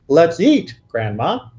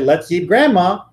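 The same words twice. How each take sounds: First: There is a pause before the word Grandma. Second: The words run on with no pause before Grandma. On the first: Grandma is being invited to eat. "I can actually say, ... And now all of you know that I'm not a cannibal" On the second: Grandma is what will be eaten. "you would wonder whether we were the Donner Party"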